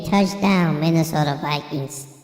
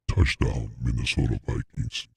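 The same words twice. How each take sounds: First: It is said in a high baby-like voice. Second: It is said in a deep Optimus Prime voice.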